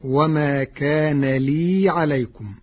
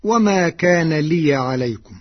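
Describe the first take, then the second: First: لي as lii, a plain long vowel; Warsh reading with still ياء. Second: لي as liya, open ياء; first reading. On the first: Teacher demonstrates Warsh's reading slowly, لي as lii. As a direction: let لي run long as lii, no ya sound. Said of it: "فتصير مدا طبيعيا هكذا". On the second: Teacher recites the common reading before Warsh's, لي as liya. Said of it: "قرأ ورش كلمة "لي". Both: Shown as a demonstration.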